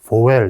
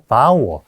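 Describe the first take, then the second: First: The word is read as spelled, letter by letter. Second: The first vowel is a gliding diphthong. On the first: The speaker calls it wrong. "글자대로 읽곤 하는데 그렇게 하면 안 됩니다" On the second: The speaker calls it right. "vowel 이중모음이죠"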